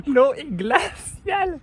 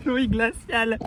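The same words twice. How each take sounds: First: Higher, slow, gasping L'eau est glaciale; drawn-out shivering L'eau est glaciale; in ice cold water. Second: In ice cold water. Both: Real, not acted.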